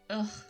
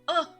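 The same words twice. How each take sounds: First: It sounds like a grunt of disgust. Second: It sounds like a grunt of pain.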